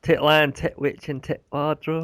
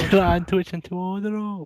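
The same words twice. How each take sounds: First: Slow phrase, each "tit" hit hard; stress on TIT. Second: Put-on high, slow accent, "To" slurred lightly; silly accent gliding over "To". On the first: Shown as a demonstration. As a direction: punch every "tit" separately. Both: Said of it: "It's more emphasis on the tit".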